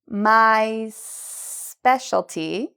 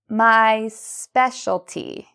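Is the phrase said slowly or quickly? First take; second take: slowly; quickly. First: The phrase is said at a slower pace. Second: The phrase is said at a faster pace.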